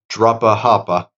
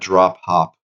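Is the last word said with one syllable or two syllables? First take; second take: two syllables; one syllable. First: The last word is said with two syllables. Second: The last word is said as one syllable.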